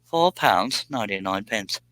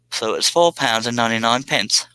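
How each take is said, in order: First: Put-on British accent tried again, lightly; mock British accent. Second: A hammy, put-on British accent on the price; reading the price like a Londoner, half joking; mock British accent. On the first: Streamer repeating the price, in a light mock British accent. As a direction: another go at sounding British. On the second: Streamer reading a British donation amount, in mock British accent. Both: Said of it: "I can't say that in a normal accent".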